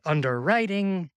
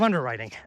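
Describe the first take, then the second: First: The stress falls on an unusual syllable. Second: The stress falls on the normal syllable. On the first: The speaker calls it wrong. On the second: The speaker calls it right.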